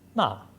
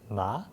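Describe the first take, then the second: First: The pitch goes downward. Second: The pitch goes upward. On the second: "going upward"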